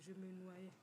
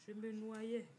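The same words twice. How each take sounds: First: Said in the usual way. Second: "Je me noyais" said louder, firmly stressed; emphatic repeat. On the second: Real, not acted. Vlogger recalling being swamped by debts, emphatic repeat. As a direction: hit "Je me noyais" hard, falling at the end.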